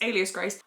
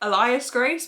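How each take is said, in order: First: The first word begins with an 'ay' sound. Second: The first word begins with an 'ee' sound. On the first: The speaker calls it right. "oh, it's" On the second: The speaker calls it wrong. "in my head, have been pronouncing it"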